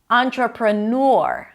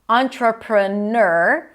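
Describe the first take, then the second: First: The last syllable sounds like nor. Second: The last syllable sounds like ner. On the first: "Nor, or, as in tour" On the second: "Either ner, in my opinion, that's the easiest"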